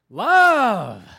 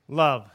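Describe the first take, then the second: First: It is said with excited exclamation. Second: It is said flatly, falling like a statement.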